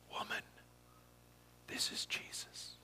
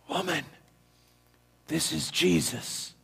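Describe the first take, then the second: First: It is said quietly. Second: It is said loudly.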